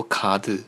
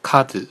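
First: 카드 said with a foreign, non-Korean tune; teacher's wrong take, 卡子 in an un-Korean tune; wrong-tune example. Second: 카드 with the proper Korean tune, kept short; teacher's right take of 카드; correct Korean tune. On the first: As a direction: show learners the mistaken tune on 卡子. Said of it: "就这种调". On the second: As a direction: model 카드 as Korean, without English intonation. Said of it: "不要读其他的调". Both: Shown as a demonstration.

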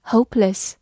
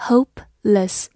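First: Said in the usual way. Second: "Hopeless" split slowly into hope, less; syllable by syllable. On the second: Shown as a demonstration. Teacher builds "Hopeless" for learners, syllables slowly separated. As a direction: say "Hopeless" in two separated parts. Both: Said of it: "H O P E".

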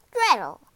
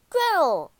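First: Loud, commanding summons; witch's shout. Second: High, loud, falling call; boy calling out. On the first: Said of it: "the witch shouted at dawn". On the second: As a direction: call joyfully to your sister. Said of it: "called Hansel". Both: A narrator's reading.

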